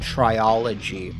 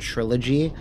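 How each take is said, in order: First: It is said with an extra syllable, tri-o-lo-gy. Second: It is said with three syllables, tri-lo-gy. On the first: The speaker calls it wrong. "I thought it was called triology, which makes no fucking sense" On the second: The speaker calls it right. "this is the first time I ever saw the word trilogy"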